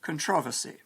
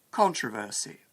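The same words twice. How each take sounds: First: "controversy" stressed on the second syllable; con-TROV-er-sy, "controversy" peaking on TROV; alternative stress. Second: "controversy" stressed on the first syllable; CON-tro-ver-sy, "controversy" hit at the start; careful stress. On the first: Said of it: "Other people will say". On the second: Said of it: "the intonation of a word varies". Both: Shown as a demonstration.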